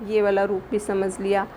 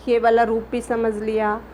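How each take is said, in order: Both takes have the same delivery.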